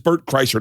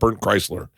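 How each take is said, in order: First: The surname's second syllable sounds like 'sher'. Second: The surname's second syllable sounds like 'sler'. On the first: The speaker calls it right. "it's Bert Kreischer" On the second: The speaker calls it wrong. "not Bert Chrysler"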